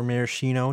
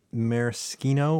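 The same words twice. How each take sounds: First: Maraschino said with a soft SH, mara-SHEE-no; soft SH pronunciation. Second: Maraschino said with a hard K, mara-SKEE-no; hard K pronunciation. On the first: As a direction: say the sch in maraschino as SH. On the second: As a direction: say the sch in maraschino as SK. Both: Shown as a demonstration. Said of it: "depending on how you wanna say it".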